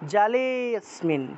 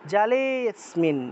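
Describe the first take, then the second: Both takes have the same delivery.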